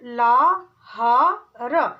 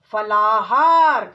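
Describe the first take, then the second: First: फलाहार drawn out very slowly; syllable by syllable. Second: फलाहार said whole and louder; whole word. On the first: Teacher sounding out फलाहार. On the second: Teacher blending फलाहार. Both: Shown as a demonstration. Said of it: "ऐसे ही".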